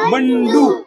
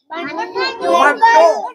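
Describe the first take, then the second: First: Said in the usual way. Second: Bandu said with nose pinched shut, slow and nasal; pinching nose. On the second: Shown as a demonstration. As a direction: hold the nose closed and stretch Bandu slowly. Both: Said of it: "नाक दाबून म्हणा बरं".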